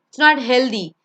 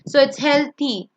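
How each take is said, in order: First: The middle sound is not a soft th. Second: The middle sound is a soft th. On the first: The speaker calls it wrong. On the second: The speaker calls it right. "usually when you when T H is there, it's th"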